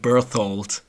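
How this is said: It has an English th sound. "in English I would call him Berthold"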